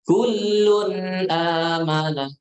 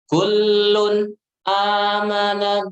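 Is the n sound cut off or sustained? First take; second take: sustained; cut off. First: The n sound is sustained without a break. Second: The n sound is cut off abruptly. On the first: The speaker calls it right. "perhatikan suara tanwinnya" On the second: The speaker calls it wrong. "jangan membaca ... Salah"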